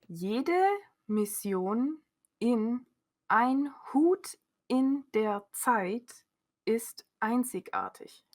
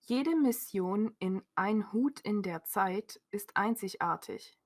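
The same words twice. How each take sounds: First: The sentence is read at a very slow pace. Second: The sentence is read at a normal, quick pace. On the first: "Very slowly" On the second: "Is this slow, not slow?"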